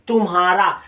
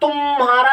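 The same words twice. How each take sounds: First: The first syllable is kept short. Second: The first syllable is held long. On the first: The speaker calls it right. "बल्कि क्या कहते तुम्हारा" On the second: The speaker calls it wrong. "यहां तुम्हारा नहीं कहते"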